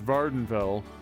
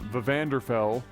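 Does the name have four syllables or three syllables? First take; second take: three; four. First: The name is said with three syllables. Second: The name is said with four syllables. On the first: The speaker calls it right. "and it's" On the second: The speaker calls it wrong. "I always called the island"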